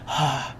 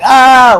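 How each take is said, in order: First: The sigh is soft and quiet. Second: The sigh is loud and forceful.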